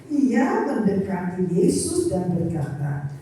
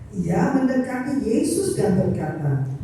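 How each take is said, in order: The two takes are said the same way.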